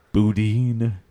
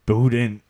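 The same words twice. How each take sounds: First: "boudin" as boo-DEEN; long ee ending on "boudin"; alternative pronunciation. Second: "Boudin" as BOO-din; short i ending on "Boudin"; alternative pronunciation. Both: Acted. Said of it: "Nobody knows how you say it".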